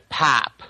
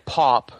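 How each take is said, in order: First: The vowel is short and almost like A. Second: The vowel is a long, rounded O. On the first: This is how people in Michigan say it. "It's a very short O, almost like an A" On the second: This is the speaker's own accent. "I have a long O pronunciation of things"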